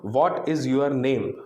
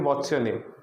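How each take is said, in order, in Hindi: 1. हर शब्द पूरा और अलग-अलग बोला जाता है। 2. 'What is' एक छोटे अक्षर में बदल जाता है। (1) "तो ये उतना फ्लुएंट नहीं लगेगा" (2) "कम मुंह खोल के बोलेंगे"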